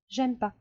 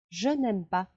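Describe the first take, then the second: First: The negative 'ne' is left out entirely. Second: The negative 'ne' is pronounced in full.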